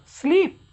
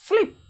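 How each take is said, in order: First: स्लीप with a long, held "ee"; long sound. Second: स्लीप with a short "i", as in slip; short sound. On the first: Teacher drills the long sound, स्लीप with long "ee". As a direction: stretch the vowel in स्लीप. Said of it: "ये long sound क्या हो गया". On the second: Teacher answers how the short form goes, स्लीप with quick "i". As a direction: cut the vowel of स्लीप short. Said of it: "short में क्या बोलेंगे". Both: Shown as a demonstration.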